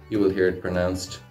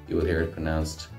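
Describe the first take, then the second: No difference in how they are said.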